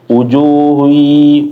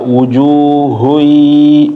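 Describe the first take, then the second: First: The H sound is thin and light. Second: The H sound is heavy and full. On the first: The speaker calls it wrong. "jangan tipis-tipis" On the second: The speaker calls it right. "huruf H ditebelin lagi"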